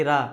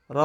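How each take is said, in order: First: "রা" with an open aa vowel; common mispronunciation. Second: "র" with a rounded o vowel; corrected heavy ro. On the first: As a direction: open "রা" to aa, the mistaken way. ("রা" আ-কার দিয়ে, ভুল উচ্চারণ) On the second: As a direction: round "র" to ro rather than raa. ("র" মোটা অ-স্বরে, রা নয়) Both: Shown as a demonstration. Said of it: "এটা আরেকটা প্রচলিত ভুল".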